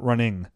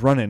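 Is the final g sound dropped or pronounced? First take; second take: pronounced; dropped. First: The word ends with the final g sound. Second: The word ends without the final g sound. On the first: "not running" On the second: "He says running"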